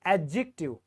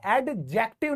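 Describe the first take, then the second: First: एडजेक्टिव with a silent d, a-jective; correct pronunciation. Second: एडजेक्टिव with the d sounded, ed-jective; wrong pronunciation. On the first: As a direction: say एडजेक्टिव dropping the d. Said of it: "ये silent है". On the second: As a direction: say एडजेक्टिव pronouncing the d. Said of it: "एडजेक्टिव नहीं होता". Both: Shown as a demonstration.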